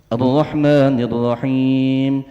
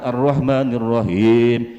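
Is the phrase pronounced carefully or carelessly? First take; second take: carefully; carelessly. First: The phrase is articulated carefully, with full Arabic sounds. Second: The phrase is articulated loosely, with altered Arabic sounds. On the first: The speaker calls it right. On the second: The speaker calls it wrong.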